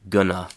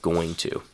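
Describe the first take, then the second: First: The phrase is squeezed into reduced gonna. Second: The phrase is said in its full form. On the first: "chewing gum English" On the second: "instead of"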